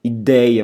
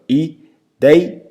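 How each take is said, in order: First: Said in the usual way. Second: Ideia in separate syllables, DEI high and loud; split into syllables. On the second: Shown as a demonstration. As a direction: break up ideia, punching DEI. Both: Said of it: "se eu dividir silabicamente a palavra ideia".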